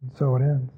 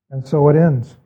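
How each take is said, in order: First: Softer, lower repeat of the closing words; hushed, lower echo of the ending. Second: Said in the usual way. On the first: Shown as a demonstration. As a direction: let it fade out quietly.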